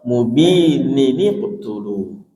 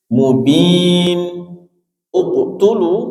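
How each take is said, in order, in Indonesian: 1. Bunyi sambung 'ni' menghubungkan kedua kata. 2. Kedua kata diucapkan tanpa bunyi nun sambung.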